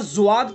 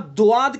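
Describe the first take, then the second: First: The first sound resembles a z. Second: The first sound resembles a plain d. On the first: "जुआद कहेंगे तो जा की मुशाबत हो जाएगी" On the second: "दुआद अगर कहेंगे तो दाल की मुशाबत हो जाएगी"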